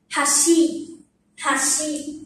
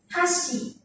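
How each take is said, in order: First: "hashi" starting low, going up on shi; low-to-high pitch accent. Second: "Hashi" starting high, falling on shi; high-to-low pitch accent. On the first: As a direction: begin "hashi" down, then lift shi. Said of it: "là sẽ xuống trước". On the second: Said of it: "Và khi ngược lại". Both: Shown as a demonstration.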